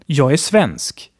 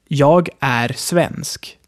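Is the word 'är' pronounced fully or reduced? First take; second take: reduced; fully. First: The word 'är' is reduced to a short 'e'. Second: The word 'är' is pronounced fully with its r. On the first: "Demzufolge würde ich eher sagen"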